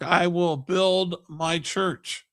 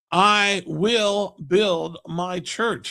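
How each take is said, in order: First: Said in the usual way. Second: Each word of "I will build my church" slow and separate; emphatic repetition. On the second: A narrator's reading. Preacher repeats Jesus' promise to the listeners, slow and emphatic. Repeats quote to drive it home.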